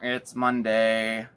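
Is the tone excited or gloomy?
gloomy. It is said in a gloomy, groaning tone. The week's start is something to dread. The speaker calls it wrong. "instead of saying, uh, uh"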